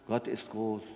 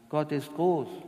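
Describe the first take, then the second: First: It is spoken plainly, without melody. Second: It is spoken raised and melodic, near song. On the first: "wenn ich schlicht sage" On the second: "Und das steigere, hört sich das an"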